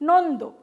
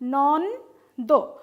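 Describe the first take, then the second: First: The word is said smoothly as one unit. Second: The word is broken into two separated parts.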